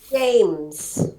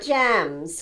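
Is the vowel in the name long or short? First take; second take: long; short. First: The vowel is a long A sound. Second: The vowel is a short A sound. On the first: The speaker calls it right. "which makes the A say its name" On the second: The speaker calls it wrong. "but not Jams, because that sounds like J A M S"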